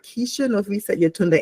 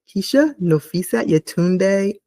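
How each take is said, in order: First: The name is said at normal speed. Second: The name is said slowly.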